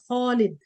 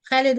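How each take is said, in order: First: The kh is said heavy, with a full mouth. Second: The kh is said light, with a thin mouth. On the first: This is the reading used in the Quran. The speaker calls it right. "I can say Khalid" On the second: This is the everyday colloquial way. The speaker calls it wrong. "we use it like this in, in Ammiya"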